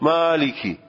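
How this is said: It is said with an Arabic accent. "خود عرب لحنش اینه"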